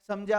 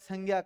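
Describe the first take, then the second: First: The middle cluster is said like 'jny'. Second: The middle cluster is said like 'gy'. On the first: The speaker calls it right. "इसका शुद्ध उच्चारण क्या होता है?" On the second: The speaker calls it wrong. "कई विद्यार्थी इसको उच्चारित संज्ञा करते हैं, जो कि गलत है।"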